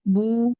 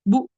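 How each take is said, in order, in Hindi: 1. स्वर सामान्य लंबाई में आराम से बना रहता है। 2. स्वर छोटा और झटके से कटता है। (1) "बल्कि बू ही रहे" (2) "ना ही इतनी जल्दी करें कि झटका महसूस है, जैसे कि बू"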